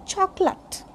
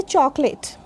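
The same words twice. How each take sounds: First: Chocolate as CHOK-lut, softer weak ending; correct pronunciation. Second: Chocolate as CHOK-layt, full final vowel; common mispronunciation. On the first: Teacher correcting chocolate for learners, CHOK-lut. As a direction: reduce the last vowel of chocolate. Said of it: "This is". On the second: Teacher showing what people say, CHOK-layt. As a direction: rhyme the end of chocolate with late. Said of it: "We say chocolate". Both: Shown as a demonstration.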